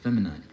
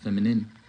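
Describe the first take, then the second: First: The last syllable sounds like the word 'nine'. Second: The last syllable is a short 'nin' sound. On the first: The speaker calls it right. "but feminine" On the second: The speaker calls it wrong. "not feminine"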